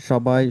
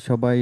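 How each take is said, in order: Both takes have the same delivery.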